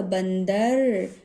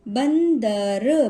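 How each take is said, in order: First: Said in the usual way. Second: बंदर slow and louder, split as ban, da, ra; sounding out. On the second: Shown as a demonstration. Teacher demonstrating the nasal sign, slow split syllables. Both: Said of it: "थोड़ा सा pause देकर".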